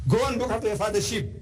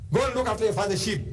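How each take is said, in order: First: Higher, quick brush-off again with more push; a touch more scornful commander; dismissive commander repeated. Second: Higher, quick brush-off; mild mock scornful commander; dismissive commander. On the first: Retold or imitated. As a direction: shoo him away firmly. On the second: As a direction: wave the boy off. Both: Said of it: "So what? You?".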